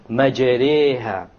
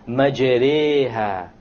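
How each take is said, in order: First: The vowel after the r is between 'a' and 'e'. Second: The same.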